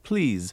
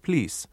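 First: The word ends with a z sound. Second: The word ends with an s sound. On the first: "The Z sound ... we have it quite frequently in words such as" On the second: "which they pronounce routinely as an S"

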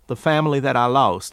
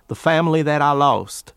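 Both takes have the same delivery.

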